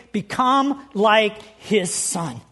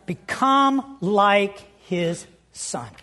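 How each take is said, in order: First: Slow repeated stress. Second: Slow scripture stress. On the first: Repeats phrase for underlining. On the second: Reads key scripture phrase. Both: Acted.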